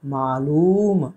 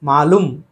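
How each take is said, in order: First: मालूम with long drawn-out oo; correct long vowel. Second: मालूम said as "maalum", short u; Hyderabad-style short-u मालूम; wrong short vowel. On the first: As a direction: slowly stretch the लू of मालूम. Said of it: "होना चाहिए". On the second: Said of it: "मालूम गलत है". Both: Shown as a demonstration.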